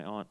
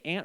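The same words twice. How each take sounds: First: "aunt" said like the insect ant; short-a aunt. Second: "aunt" rhyming with "font"; broad-a aunt. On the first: Comedian asks crowd how they say it, "aunt" as ant. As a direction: say "aunt" with the flat a of "cat". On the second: Comedian asks crowd how they say it, "aunt" as ahnt. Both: Shown as a demonstration. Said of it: "do you say aunt or aunt?".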